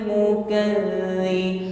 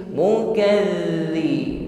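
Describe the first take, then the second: The two takes are said the same way.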